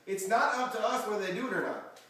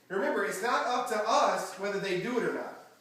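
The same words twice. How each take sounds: First: "not" pushed out strongly, ending in a fall; stress on not. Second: "us" lifted and leaned on, ending in a fall; weight on "us", the rest plain; stress on us. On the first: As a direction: punch the first "not". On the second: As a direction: hit the word "us" so it lands. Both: Shown as a demonstration.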